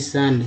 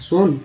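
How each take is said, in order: First: The vowel sounds like 'uh'. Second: The vowel sounds like 'oo'. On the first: The speaker calls it right. "नहीं सन, क्योंकि English word है" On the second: The speaker calls it wrong. "सुन नहीं"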